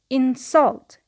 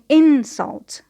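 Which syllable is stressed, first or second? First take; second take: second; first. First: The stress is on the second syllable. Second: The stress is on the first syllable. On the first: It is used as a verb. "The stress is on the second syllable because it is a verb" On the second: It is used as a noun. "the stress is on the first syllable"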